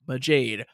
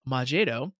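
First: It is said with an English-style pronunciation. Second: It is said with a Japanese-style pronunciation. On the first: The speaker calls it right. "the proper English pronunciation of Majade would be Majade" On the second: The speaker calls it wrong. "which is how you would read it in Japanese"

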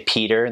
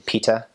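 First: It is said in an American accent. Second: It is said in a Ghanaian accent. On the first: "Maybe we say Peter" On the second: "they say Pita"

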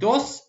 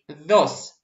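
First: The d is made behind the teeth. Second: The d is made with tongue between teeth. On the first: "Можно говорить dos, это ничего страшного" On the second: "Как будто ты язычок прикусил и говоришь dos"

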